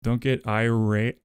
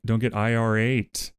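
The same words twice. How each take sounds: First: Said in the usual way. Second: "I R eight" said as letters I, R then eight; spelled-out pun. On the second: Shown as a demonstration. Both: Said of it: "Get it?".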